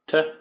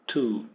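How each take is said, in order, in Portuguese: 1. A palavra é dita com uma vogal fraca e reduzida. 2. A palavra é dita com uma vogal plena e clara.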